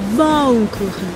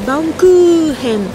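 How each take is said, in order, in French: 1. La voyelle u reste courte. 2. La voyelle u est allongée. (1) "c'est pas allongé" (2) "en japonais, le U il est allongé"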